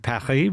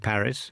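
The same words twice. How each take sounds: First: It is pronounced the French way. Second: It is pronounced the English way. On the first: "we don't say Paris" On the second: "we say Paris in English"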